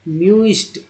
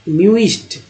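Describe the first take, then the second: The two takes are said the same way.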